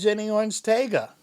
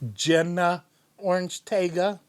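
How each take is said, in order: First: The first name ends in an 'ee' sound. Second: The first name ends in an 'uh' sound. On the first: The speaker calls it wrong. "I have been saying that wrong this whole time" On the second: The speaker calls it right. "It's supposed to be"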